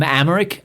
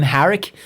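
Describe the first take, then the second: First: Amharic said "AM-er-ick", the h dropped; unsure pronunciation. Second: Amharic said "am-HARR-ick", the h sounded; retry Amharic with a clear h, questioning; unsure pronunciation. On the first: Guessing at the language's name, Amharic as an unsure "AM-er-ick". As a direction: tentatively try Amharic without its h. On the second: Second guess at the language's name, Amharic as an unsure "am-HARR-ick". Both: Real, not acted. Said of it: "however the fuck you pronounce that".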